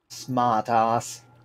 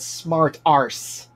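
First: It is said in a non-American accent. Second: It is said in an American accent. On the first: "I used the same accent they did" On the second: "I'll put it in American"

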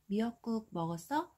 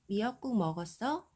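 The two takes are said the same way.

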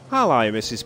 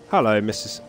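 First: It is said in an Australian accent. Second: It is said in the speaker's usual accent.

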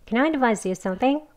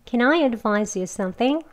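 First: The sentence is said at a fast pace. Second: The sentence is said at a slower pace. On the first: "빨리 더 두 번 해보겠습니다" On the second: "같이 해볼게요"

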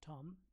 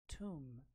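First: The vowel is a short o sound, as in Tom. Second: The vowel is a long oo sound, as in room. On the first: The speaker calls it wrong. "not like Tom" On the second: The speaker calls it right. "this word is pronounced as tomb"

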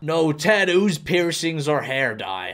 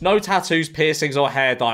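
First: It is read in a put-on American accent. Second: It is read in the speaker's normal accent. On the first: "That was an awful American accent" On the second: "I'm just gonna reread it in my normal voice"

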